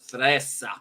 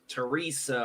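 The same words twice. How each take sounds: First: The name is pronounced in an Italian way. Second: The name is pronounced in an English way. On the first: The speaker calls it right. "The proper way to say my mom's name is Teresa" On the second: The speaker calls it wrong. "everybody calls her uh, Teresa or Terry, and that's not the proper way"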